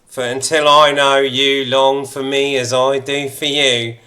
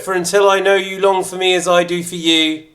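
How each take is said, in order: First: It is read in a put-on suave voice. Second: It is read in a plain, ordinary voice.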